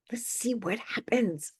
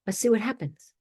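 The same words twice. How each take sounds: First: "Let's see what happens." whispered slowly and softer. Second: Said in the usual way. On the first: Real, not acted. Echoed as a slow whisper.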